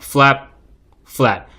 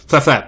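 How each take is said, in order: First: It is said slowly. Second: It is said quickly. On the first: The shutter opens and closes more slowly. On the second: The shutter opens and closes very quickly.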